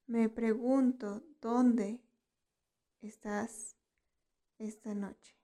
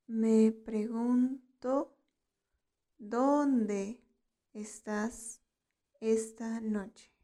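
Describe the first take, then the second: First: Said in the usual way. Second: "Me pregunto. ¿Dónde estás esta noche?" drawn out, with pauses between phrases; slow teaching model. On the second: Shown as a demonstration. Teacher models "Me pregunto. ¿Dónde estás esta noche?" for learners, slowly in pieces.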